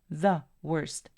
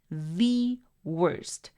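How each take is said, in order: First: 'The' is said with a short uh vowel. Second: 'The' is said with a long ee vowel. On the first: The word is not emphasized. "sería el sonido como" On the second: The word is being emphasized. "quiero enfatizar esa palabra"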